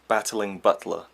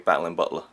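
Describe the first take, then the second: First: Each sound is pronounced clearly and fully. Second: The sounds are slurred and run together. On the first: The speaker calls it right. "if you really pronounce it" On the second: The speaker calls it wrong. "my kind of way of saying it ... a bit of a cluster fuck of words that doesn't even sound like the English language"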